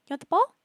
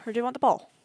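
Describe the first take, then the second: First: High, loud rising question about the ball; high pet voice. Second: Said in the usual way. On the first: Real, not acted. Player offering ball to pet, high pet voice. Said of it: "With the stupid high voice".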